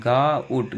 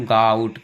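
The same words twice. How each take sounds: First: "गाउट" broken as गा ... उट; split pronunciation. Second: Said in the usual way. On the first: Shown as a demonstration. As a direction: hold गा, then finish "गाउट" with उट. ("गाउट" को गा ... उट तोड़कर) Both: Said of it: "आओ निकल रहा है साउंड".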